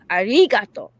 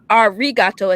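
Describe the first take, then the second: First: The consonant is an L-like sound. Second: The consonant is an English R sound. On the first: The speaker calls it right. "it's arigato with a L" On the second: The speaker calls it wrong. "we're saying it wrong. It's not arigato"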